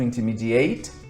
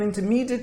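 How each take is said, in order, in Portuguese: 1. É pronunciada como a forma de verbo. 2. É pronunciada como a forma de adjetivo. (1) "Agora eu vou usar ele como verbo" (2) "É um adjetivo, está dando qualidade ao student"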